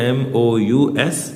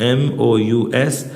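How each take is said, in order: No difference in how they are said.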